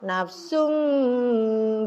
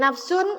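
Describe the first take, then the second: First: The word ends with a held, nasal m sound. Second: The word ends with a plain n sound. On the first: "di depan ada b. Jadi ditahan dengungnya" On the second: "Bunyi nama tanwin tadi nafsun"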